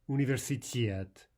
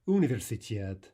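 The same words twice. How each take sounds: First: The stress falls on the final syllable. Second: The stress falls on a syllable before the last. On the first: The speaker calls it right. "what we want is" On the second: The speaker calls it wrong. "let's practice misplacing the stress... All of these are incorrect"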